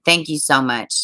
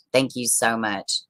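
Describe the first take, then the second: First: Said in the usual way. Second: Softer, slower and lower; quiet heartfelt thank-you repeated slowly; softer sincere thanks. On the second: Real, not acted. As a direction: say it again gently, really meaning it.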